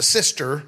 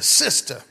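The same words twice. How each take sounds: First: Said in the usual way. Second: "sister" with the final r dropped; "sister" with an open, r-less ending; slangy "sister". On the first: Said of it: "she's a sister". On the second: Shown as a demonstration. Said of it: "She's not just a sister".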